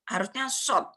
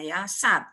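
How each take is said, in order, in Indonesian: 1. Nama huruf itu punya vokal o bulat. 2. Nama huruf itu punya vokal a terbuka.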